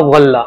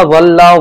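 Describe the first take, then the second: First: ولہ with a heavy dhaad from the side of the tongue; ولہ said with a full dhaad; dhaad pronunciation. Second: ولہ with a heavy dh, tongue between the teeth; ولہ said with a full heavy zoa; zoa pronunciation. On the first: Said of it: "ضاد سے بھی ہو سکتا ہے". (ولہ کو ضاد کی آواز سے پڑھیں) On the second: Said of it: "ذوا سے بھی ہو سکتا ہے". (ولہ کو ظ کی بھاری آواز سے پڑھیں) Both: Shown as a demonstration.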